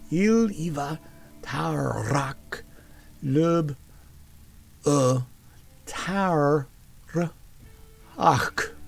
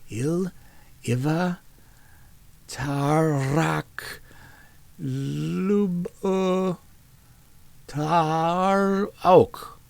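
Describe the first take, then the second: First: The last word ends with a strong, harsh throaty sound. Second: The last word ends softly, with no throaty sound. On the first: The speaker calls it right. "She overdid the hack like a cat with a hairball" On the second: The speaker calls it wrong. "She pronounced the last a bit like hawk"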